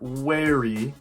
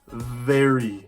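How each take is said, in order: First: It begins with a rounded-lip W sound. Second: It begins with a buzzing lip-and-teeth V sound. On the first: The speaker calls it wrong. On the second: The speaker calls it right.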